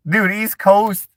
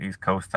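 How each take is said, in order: First: Incredulous. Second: Said in the usual way. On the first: Real, not acted. Protesting chat comment.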